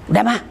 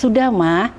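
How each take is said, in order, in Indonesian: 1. Diucapkan dengan nada kasar dan ketus. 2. Diucapkan dengan nada lembut dan halus. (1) "jangan seperti itulah adik-adik ya" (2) "tutur kata kamu juga harus baik"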